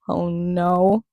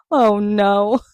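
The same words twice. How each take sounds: First: Said in the usual way. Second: Louder, imitated Oh no in a put-on voice; imitating Shane. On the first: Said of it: "he's like". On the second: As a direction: mimic the caught-out Oh no. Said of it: "The way he's like".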